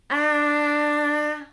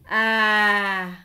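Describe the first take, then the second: First: The pitch stays level throughout. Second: The pitch falls throughout. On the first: "c'est l'accent neutre" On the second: "l'accent descendant représenté par un accent grave"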